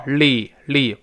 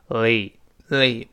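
First: "li" as in Mandarin pinyin, quick l straight into the vowel; wrong Chinese-style l. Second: "li" slowly, tongue tip pressed forward for the l; correct English l. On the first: Teacher showing what to avoid, pinyin-style l. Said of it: "不要li，li". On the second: Teacher showing how l joins a vowel, lingering l. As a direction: linger on the l, then slide into "li". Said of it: "舌尖往前指". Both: Shown as a demonstration.

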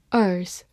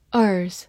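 No difference in how they are said.

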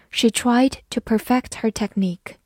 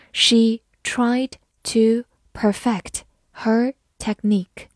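First: Said in the usual way. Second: Slow, separated model reading. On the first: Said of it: "慢读一遍". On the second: Shown as a demonstration. Teacher reading the technique sentence for learners, slowly. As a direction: read slowly, one word at a time. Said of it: "好，慢读一遍".

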